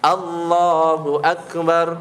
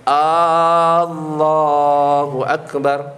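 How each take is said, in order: First: The first A vowel is kept short. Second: The first A vowel is drawn out long. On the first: It states that God is the greatest. The speaker calls it right. "Kalau A-nya pendek" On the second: It asks whether God is the greatest. The speaker calls it wrong. "Takbir misalkan salah"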